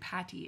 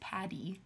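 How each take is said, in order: First: The middle consonant is a t sound. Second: The middle consonant is a d sound. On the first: The speaker calls it wrong. "giving me shit for saying Patty" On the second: The speaker calls it right. "The D sound"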